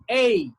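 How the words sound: The vowel is said in a British way. "British, this one is A"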